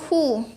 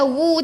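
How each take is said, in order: First: The syllable begins with an h sound. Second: The syllable begins with a w sound. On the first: The speaker calls it wrong. "jangan jangan hu" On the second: The speaker calls it right. "Mestilah wu tau"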